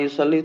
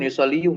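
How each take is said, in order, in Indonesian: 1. Kata ini berakhir pada vokal 'ee' biasa. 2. Kata ini berakhir dengan tambahan suku kata 'yu'. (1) "Domanya nggak ditampakkan berat ya" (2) "Ngapain yusalliyu ngapain itu?"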